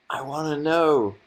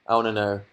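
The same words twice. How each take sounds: First: "know" stretched, higher and slow; sing-song repeat. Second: Said in the usual way. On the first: Shown as a demonstration. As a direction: sing it out slowly, pleading a bit.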